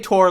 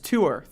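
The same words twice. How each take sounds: First: It is one syllable, rhyming with 'tore'. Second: It is two syllables, like 'two-er'. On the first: The speaker calls it right. "I say tour like the browser, or like I tore" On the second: The speaker calls it wrong. "Tour sounds like you're talking about like numerals"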